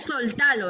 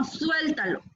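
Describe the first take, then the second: First: "soltalo" stressed on the middle syllable; "soltalo" with plain o and stressed ta; wrong suéltalo. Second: "suéltalo" stressed on the first syllable; "suéltalo" with a ue glide, stressed; correct suéltalo. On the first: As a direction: show the faulty "soltalo", sol-TA-lo. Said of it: "No es soltalo". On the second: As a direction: model "suéltalo", SUEL-ta-lo. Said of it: "sino suéltalo". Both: Shown as a demonstration.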